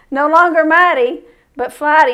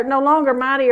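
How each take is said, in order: First: Louder, punching mighty against flighty; punchline stress. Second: Said in the usual way. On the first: Shown as a demonstration. Preacher repeating his pun to the congregation, louder and punchier. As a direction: land the wordplay on mighty and flighty.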